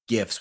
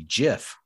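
First: The word begins with a hard G sound. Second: The word begins with a soft G sound. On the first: "with a hard G" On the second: "the other option"

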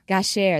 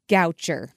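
First: The name is said with a French pronunciation. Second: The name is said with an American pronunciation. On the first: The speaker calls it right. "That's much nicer than Goucher" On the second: The speaker calls it wrong. "in American, it's Goucher"

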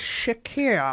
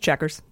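First: The word is given a French-sounding pronunciation. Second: The word is given a plain English pronunciation. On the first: The speaker calls it wrong. "tried to make it super French" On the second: The speaker calls it right. "it's just pronounced checkers"

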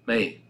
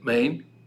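First: The final n sound of the word is dropped. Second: The opening vowel sound of the word is dropped. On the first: "he shouldn't swallow the last letter of the Amen" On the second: "He should not grab the aleph, the first letter of Amen"

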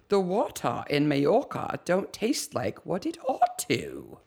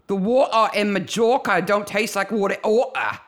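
First: It is said in a posh, upper-class accent. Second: It is said in a rough street accent.

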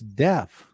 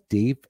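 First: The vowel is short, like in left. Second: The vowel is long, like in leaf. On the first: The speaker calls it right. "it's deaf" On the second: The speaker calls it wrong. "It's not deep"

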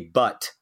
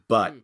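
First: The final t ends with the mouth open. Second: The final t is a glottal stop, mouth closed. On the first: "I didn't say but" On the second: "I said but by closing my mouth"

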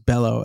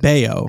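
First: The middle consonant is an L sound. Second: The middle consonant is a Y sound. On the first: The speaker calls it wrong. "as in Brian Fellows" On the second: The speaker calls it right. "It's Bayo"

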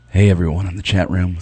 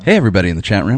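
First: It is said in a sexy voice. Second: It is said in his plain voice.

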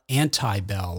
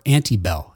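First: The first part does not sound like antebellum. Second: The first part sounds like 'ante' in antebellum. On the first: The pun on antebellum is lost. The speaker calls it wrong. "I want to say like Anti-Bell or say it in a way that's not consistent" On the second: The name is a pun on antebellum. The speaker calls it right. "I always have to remember Anti-Bell as in Antebellum"

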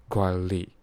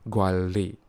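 Both takes have the same delivery.

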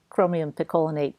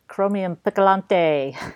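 First: The last word is said as picolinate. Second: The last word is said as picolante. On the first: This is the proper name. The speaker calls it right. "which it's chromium picolinate" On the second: Someone else said it this way. The speaker calls it wrong. "he called it chromium picolante"

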